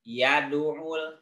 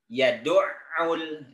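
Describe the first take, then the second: First: The throat consonant is short and single. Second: The throat consonant is doubled, deep in the throat. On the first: The speaker calls it wrong. "Tidak yad'ul. Tidak begitu" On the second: The speaker calls it right. "Tapi ainnya tasydid"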